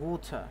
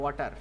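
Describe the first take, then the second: First: It is said in a British accent. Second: It is said in an Indian accent. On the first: "British অ্যাকসেন্টে বলে" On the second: "Indian অ্যাকসেন্টে বলে"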